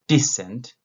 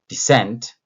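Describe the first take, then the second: First: "decent" stressed at the beginning, second syllable weak; stress on first syllable. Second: "descent" with a light start and a punched second syllable; stress on second syllable. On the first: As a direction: lean on the opening of "decent". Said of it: "the stress at the beginning". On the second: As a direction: push the weight onto the end of "descent". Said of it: "stress is on the second syllable". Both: Shown as a demonstration.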